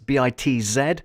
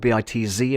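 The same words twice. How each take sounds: First: The last letter is said as zed. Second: The last letter is said as zee.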